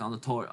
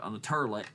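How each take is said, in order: First: Said in the usual way. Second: "toilet" said as "TER-lit"; jokey mispronunciation. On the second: Shown as a demonstration. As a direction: turn the vowel of "toilet" into an er sound. Repeats it as jokey terlet.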